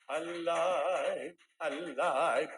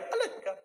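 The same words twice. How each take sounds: First: Mock singing with long, wavering vibrato, pitched low; sung, nanginginig na awit. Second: "alive" thrown out much higher; lively demo. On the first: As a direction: drag out each "alive" in a low, quavering croon. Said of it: "Pakurog-kurog pa". (sung, inaartehang kanta, mababa at pakurog-kurog) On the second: Shown as a demonstration. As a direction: show how lively it should be, pitched way up. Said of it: "Dapat pag alive". (masigla at mataas ang boses)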